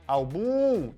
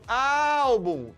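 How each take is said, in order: First: The stress is on the last syllable. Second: The stress is on the first syllable. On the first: The speaker calls it wrong. "É o bum? Eu não falo álbum" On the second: The speaker calls it right. "eu falo álbum. Então, a sílaba forte é paroxítona, é a penúltima"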